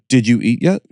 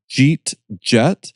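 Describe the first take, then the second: First: Said in the usual way. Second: "Jeet Jet" slurred together, Pittsburgh style; Pittsburghese. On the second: Shown as a demonstration. Teaching hosts the Pittsburgh accent. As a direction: run "Jeet Jet" into two clipped syllables. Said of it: "So if you wrote it down, I could say".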